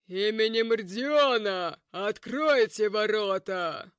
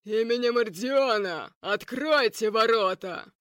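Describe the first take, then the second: First: Commanding shout. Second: Louder, commanding booming call. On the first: Knight shouting at the gate. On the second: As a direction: bellow it from outside the gates. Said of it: "разносился зычный голос". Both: Acted.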